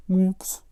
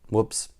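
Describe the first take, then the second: First: "Whoops" squeaked much higher, rising; high squeaky whoops. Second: Said in the usual way. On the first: Shown as a demonstration. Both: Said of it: "It'd be more like".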